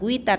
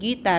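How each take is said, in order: First: The u is sounded, like 'gwitar'. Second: The u is silent, like 'gitar'. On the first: The speaker calls it wrong. "Jadi u-nya jangan dibaca, jangan guitar" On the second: The speaker calls it right. "tapi gitar ya, tetap gitar bacanya ya"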